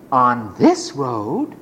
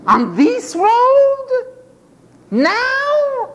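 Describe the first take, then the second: First: Low, slow, rising wonder; hushed wondering question. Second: High, slow, drawn-out disbelief; astonished question. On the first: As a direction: drop low and ask it to yourself. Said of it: "same question asked again". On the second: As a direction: stretch it high in wonder. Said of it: "beggars hear Jesus passes". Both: Acted.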